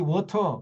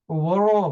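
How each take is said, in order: First: It is said crisply with a clear t sound. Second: It is mumbled with a soft flapped middle sound. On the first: Americans do not understand it. "give me water 그러면 무슨 말인지 못, 알아, 못 알아들어요" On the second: Americans understand it. "입에 눈깔 사탕 다섯 개를 물고 워러"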